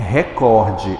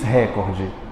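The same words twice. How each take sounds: First: The stress is on the middle syllable. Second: The stress is not on the middle syllable. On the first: The speaker calls it right. "ela é paroxítona" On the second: The speaker calls it wrong. "ele diz recorde"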